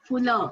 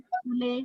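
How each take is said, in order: First: The ending is clipped, without a distinct e vowel. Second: The word ends in a full, distinct e vowel. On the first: "हम अक्सर चिंगीन, लावल, फुल इस प्रकार का उच्चारण" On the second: "इस तरह से उच्चारण न करते हुए"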